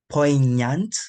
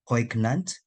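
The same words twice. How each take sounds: First: The gn is said as a nya sound. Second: The gn is not said as nya. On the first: The speaker calls it right. "The G N is a nya sound" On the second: The speaker calls it wrong. "instead of"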